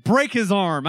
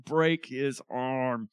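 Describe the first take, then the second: First: Loud, punchy command; forceful demand. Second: Slow, drawn-out demand; very slow, deliberate order; frustrated demand. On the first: Quoting favorite verse with relish. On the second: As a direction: stretch each word out in frustration. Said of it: "He's so frustrated". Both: Acted.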